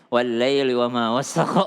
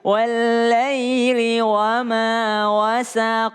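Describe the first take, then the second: First: It is recited in a hurried, rushed way. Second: It is recited in a calm, relaxed way.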